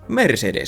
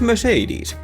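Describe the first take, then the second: First: The three E vowels all sound the same. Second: The three E vowels each sound different. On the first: "in Finnish, it's just Mercedes" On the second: "In English, it has three different E's in it"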